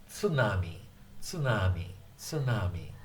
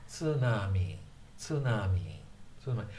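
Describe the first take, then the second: The two takes are said the same way.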